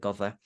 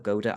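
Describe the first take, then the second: First: The middle consonant is a soft th sound. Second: The middle consonant is a plain d sound. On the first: This follows the Welsh reading of the double d. "I pronounce it as the Welsh way" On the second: This is how many other people say the name. "A lot of people call her Goda"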